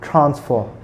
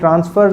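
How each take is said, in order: First: The t sound is aspirated, with a puff. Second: The t sound is unaspirated, without a puff. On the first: The speaker calls it right. "हमने इसका जो aspirated है था वो इस्तेमाल करना है" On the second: The speaker calls it wrong. "ये ट्रांसफ़र नहीं होगा"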